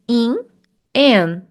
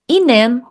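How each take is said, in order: First: The two words are said apart with a break. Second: The two words run together as one sound. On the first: The speaker calls it wrong. "É diferente se eu dissesse in, an. Não" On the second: The speaker calls it right. "eu vou juntar"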